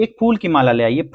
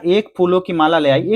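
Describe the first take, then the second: First: फूल said with a slight rising emphasis; teacher corrects फूलों to फूल, lightly stressing फूल; corrected phrase. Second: Said in the usual way. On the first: Shown as a demonstration. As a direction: lift the word फूल to mark the correction. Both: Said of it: "फूलों नहीं होगा".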